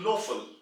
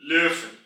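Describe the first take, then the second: First: The first vowel is a plain back o. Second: The first vowel is a rounded front ö. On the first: The speaker calls it wrong. "When you remove the umlaut, it will be converted to Löffel. That is the wrong pronunciation" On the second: The speaker calls it right. "the right pronunciation will be Löffel"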